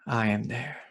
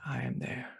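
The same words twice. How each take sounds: First: Said in the usual way. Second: Soft, voiceless repeat of a quote; hushed whisper. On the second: Retold or imitated. Meditation teacher repeats Christ's words to the class, whispered. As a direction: let it fall away to a whisper.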